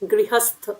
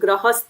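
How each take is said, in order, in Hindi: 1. पहला अक्षर 'ri' की ध्वनि के साथ बोला जाता है। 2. पहला अक्षर बिना 'ri' की ध्वनि के बोला जाता है। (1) "वो ग्री" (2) "कई लोग गृहस्थ बोलते हैं, वो नहीं है।"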